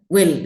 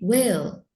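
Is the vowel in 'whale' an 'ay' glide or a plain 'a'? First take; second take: plain a; ay glide. First: The vowel is a plain, unglided 'a'. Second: The vowel is a long 'ay' glide. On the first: The speaker calls it wrong. "Jadi tidak whale gitu" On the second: The speaker calls it right. "tapi whale"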